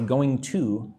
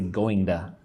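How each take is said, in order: First: Both words are said fully and separately. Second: The two words are blended into one reduced word. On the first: "I don't say going to usually" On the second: "Put those words together. I say going to"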